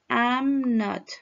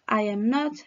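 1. Se dicen dos palabras, con I am contraído. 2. Se dicen tres palabras completas por separado. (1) "Ahora con contracción" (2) "Esta es la manera larga"

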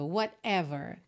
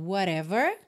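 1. O t do meio é uma oclusiva breve. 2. O t do meio é um tepe rápido. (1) "aquela pausinha ali de consoante oclusiva" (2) "com rarará"

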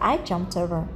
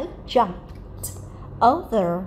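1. Cụm từ được nói nhanh như một cụm liền nhau. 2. Cụm từ được nói chậm, từng từ một. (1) "đọc nhanh thì chúng ta sẽ dùng chữ I jumped over là một đoạn" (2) "khi các bạn đọc chậm"

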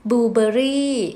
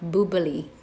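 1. พูดด้วยสำเนียงไทยค่ะ 2. พูดด้วยสำเนียงอเมริกันค่ะ

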